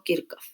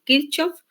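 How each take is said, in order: First: Kirchhoff closer to the original, "KIR-kof"; pronunciación original. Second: Kirchhoff read the Spanish way, "KIR-chof"; pronunciación españolizada. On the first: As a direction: make the ch in Kirchhoff a K. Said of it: "como se pronunciaría en el lenguaje original". (Kirchhoff dicho «Kírkof», con sonido de k) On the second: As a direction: give Kirchhoff a CH as in "chico". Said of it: "como sonaría en español". (Kirchhoff dicho «Kírchof», como suena en español) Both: Shown as a demonstration.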